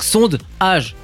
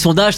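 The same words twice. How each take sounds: First: The word is split with a break before 'dage'. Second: The word is said smoothly as one unit. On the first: It brings out the word 'age' for the game. The speaker calls it right. "on scinde" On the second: It sounds like the ordinary word for a poll. The speaker calls it wrong. "si on dit sondage, ça marche pas"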